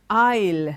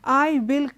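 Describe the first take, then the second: First: The two words are joined into one syllable. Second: The two words are said fully and separately. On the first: The speaker calls it right. "I plus will will be I'll" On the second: The speaker calls it wrong. "are not said I will come tomorrow"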